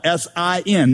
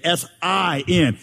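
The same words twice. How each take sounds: First: Said in the usual way. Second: S I N spelled slowly with the I made big; big middle letter. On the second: Shown as a demonstration. Pastor spelling sin for the congregation, I stressed. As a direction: lean hard on the I in "S I N". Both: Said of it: "Make the middle letter really big".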